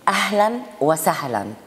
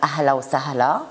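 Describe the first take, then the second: First: It is said in literary Arabic, with final endings. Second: It is said in colloquial dialect, without final endings. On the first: "si on le veut le dire en arabe littéraire" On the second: "on peut lui dire ahla ou sahla"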